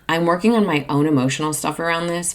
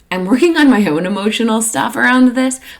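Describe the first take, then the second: First: The tone is calm and evenly toned. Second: The tone is uneven and emotionally charged. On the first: The speaker calls it right. "A little more evenly toned would be" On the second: The speaker calls it wrong. "don't say it like that"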